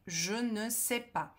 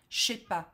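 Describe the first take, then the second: First: Every word is said, including 'ne'. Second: The 'ne' is dropped and words run together. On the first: This is the textbook form. "o francês do cursinho" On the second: This is how natives really speak. "quando você escuta um nativo falar francês"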